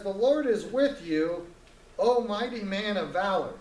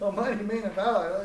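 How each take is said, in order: First: Lightly voiced solemn angel; solemn angel greeting. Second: Repeating "mighty man of valor" in disbelief; mock baffled Gideon; incredulous echo. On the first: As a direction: announce it like a heavenly messenger. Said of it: "And he says". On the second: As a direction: toss the title back as if it's absurd. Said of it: "picture Gideon looking around like".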